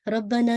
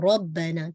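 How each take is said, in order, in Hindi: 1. 'b' की आवाज़ छोटी और एक है। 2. 'b' की आवाज़ खिंची हुई और दोहरी है। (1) "रब्बना नहीं है" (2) "बा पे आप देखिए शद है"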